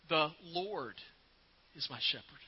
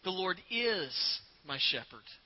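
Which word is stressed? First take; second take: Lord; is. First: The stress is on the word Lord. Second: The stress is on the word is.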